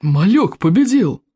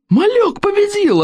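First: Slow, drawn-out cheering shout; shouting crowd. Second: Very high, slow triumphant yell; shouting crowd. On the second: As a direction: scream it in wild triumph. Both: Acted. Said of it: "орали викинги".

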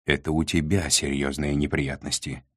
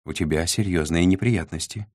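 First: "тебя" leaned on, deliberate and firm; measured retort with the weight on "тебя"; pointed stress on ТЕБЯ. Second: Said in the usual way. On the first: A narrator's reading. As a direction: throw it back, pressing on "тебя". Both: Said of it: "с нажимом ответил Сдемир".

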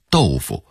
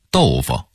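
First: Said in the usual way. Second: 豆腐 said the Beijing vernacular way, second syllable loosely reduced; Beijing local pronunciation. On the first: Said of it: "普通话应该念成豆腐". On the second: Shown as a demonstration. Teacher showing how Beijingers say tofu, 豆腐 in local Beijing pronunciation. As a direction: say 豆腐 as Beijing locals do, with a slurred, unstressed ending. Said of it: "一定得说成豆腐".

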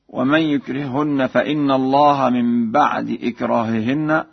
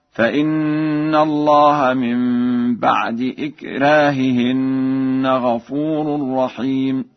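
First: Said in the usual way. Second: Slow chanted recitation, light thin r in "إكراههن"; thinned ra. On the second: Shown as a demonstration. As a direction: stretch the nasal n, keep the ra of "إكراههن" light. (ترتيل بطيء مع ترقيق راء "إكراههن") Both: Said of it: "له فيها ترقيق الراء".

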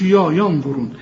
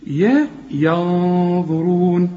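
First: يا darkened to a thick 'yaw' in ينظرون; mock mistake, thick vowel on the ya of ينظرون; wrongly heavy ya. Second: Thin 'ya', then long dark nasal hum in ينظرون; very slow ينظرون, light first vowel, held heavy nasal n; light ya, heavy ghunna. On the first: Teacher shows what not to say, wrongly heavy ya. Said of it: "ما تقولش". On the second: Teacher models it for students, light ya and heavy ghunna. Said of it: "رقق الياء". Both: Shown as a demonstration.

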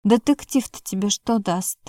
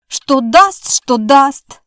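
First: Said in the usual way. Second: Louder, higher mocking echo; mocking mimicry. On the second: A narrator's reading. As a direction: mimic her words back, teasing. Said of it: "передразнила она". (передразнивая, громче и выше)

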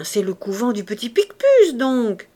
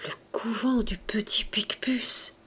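First: Put-on louder, emphatic old gardener's answer; obvious-fact exclamation. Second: Soft, half-whispered musing; hushed, thoughtful murmur; talking to himself. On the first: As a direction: blurt it out as common knowledge. Old man states the obvious. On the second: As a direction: repeat it under your breath, absorbed. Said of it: "comme se parlant à lui-même". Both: A narrator's reading.

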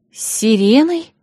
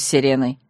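First: High, slow, rising echo question; uneasy question. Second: Said in the usual way. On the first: A narrator's reading. Bride echoes Yasha's mention of a siren, uneasy surprise. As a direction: repeat it in frowning disbelief. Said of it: "нахмурилась я".

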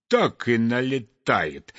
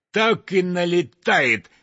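First: Said in the usual way. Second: "так и налетает" stressed harder; building emphasis. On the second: A narrator's reading. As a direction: repeat it with more push.

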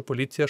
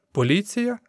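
First: Said in the usual way. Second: "Поліція" much higher, rising to a question; incredulous question. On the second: A narrator's reading. Crowd member echoes the newcomer's mention of police, incredulous. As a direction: echo "Поліція" back in disbelief. Mocking echo, crowd chuckles ironically.

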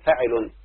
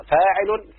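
First: فاعل dropped low and short, as the clipped form; فاعل said low and quick with a falling tune; demonstrating the clipped foot. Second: فاعل said high and stressed, as the full foot; فاعل pitched up with the alif stretched; demonstrating a metrical foot. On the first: (فاعل منخفضة قصيرة بنغمة هابطة) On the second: (فاعل بنبرة عالية ممدودة الألف) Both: Shown as a demonstration. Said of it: "فتقول".

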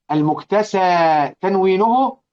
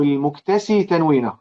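First: المكتسى said with a long final a sound, al-muktasā; long a ending. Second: المكتسي said with a final ee sound, al-muktasī; ee ending. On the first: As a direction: end المكتسى on a long open aa vowel. (المكتسى بألف ممدودة في آخرها) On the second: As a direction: end المكتسي on a clear ee vowel. (المكتسي بياء في آخرها) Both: Shown as a demonstration. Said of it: "وينفع المكتسى تنوينه".

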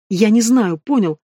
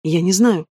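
First: Mild yell, a little raised; understated shouted reply. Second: Said in the usual way. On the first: A narrator's reading. Cornered woman answers his interrogation, mildly shouting. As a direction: shout it back, only half let out. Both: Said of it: "закричала в ответ".

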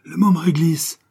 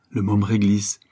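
First: "Le môme Réglisse" cried out high and loud; joyful cry. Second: Said in the usual way. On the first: Acted. Garçon reconnaît son ami et crie "Le môme Réglisse" de joie. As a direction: shout "Le môme Réglisse" with delight. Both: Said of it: "s'écria Jeannot".

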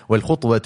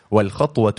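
First: "الخطوة" with an u after خ, khutwa; damma on the kha. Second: "الخطوة" with an a after خ, khatwa; fatha on the kha. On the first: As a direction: say "الخطوة" as khutwa, u in the first syllable. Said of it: "بضم الخاء". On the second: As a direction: say "الخطوة" as khatwa, a in the first syllable. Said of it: "بفتح الخاء". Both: Shown as a demonstration.

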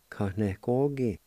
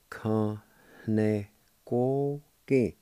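First: Said in the usual way. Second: "Ka ne ko ki" drawn out slowly, each syllable separated; slow syllable-by-syllable Cherokee. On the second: Shown as a demonstration. Teacher modelling "Ka ne ko ki" slowly for students. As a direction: sound out "Ka ne ko ki" slowly for learners. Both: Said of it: "it's pronounced like this".

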